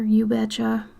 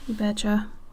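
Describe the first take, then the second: First: It has a heavy, exaggerated Minnesotan accent. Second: It has only a mild Minnesotan accent. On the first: "I don't lean into it like" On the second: "it doesn't sound like it exactly"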